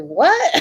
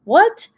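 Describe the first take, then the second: First: High startled what; baffled what. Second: High incredulous what; baffled what. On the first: Mom hearing her son's strange claim, high baffled what. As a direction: react stunned by the odd remark. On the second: Mom confused by son, high incredulous what. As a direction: squeak it out in disbelief. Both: Retold or imitated.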